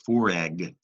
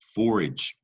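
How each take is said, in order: First: The word ends with a hard G sound. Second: The word ends with a soft G sound. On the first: The speaker calls it wrong. "That's a hard G" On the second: The speaker calls it right. "You need that soft G, soft G, just a gentle giant"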